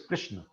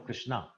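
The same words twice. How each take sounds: First: The name ends on a consonant sound. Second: The name ends on an added vowel sound. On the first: This is the original form of the name. "the actual word is Krishna" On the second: This is how Canadians say it. "we call him Krishna because Canadians can't say anything that does not end with R or A"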